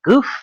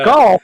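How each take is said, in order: First: The name is said with a plain oo vowel, no l. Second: The name is said with an l sound before f. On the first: The speaker calls it wrong. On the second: The speaker calls it right.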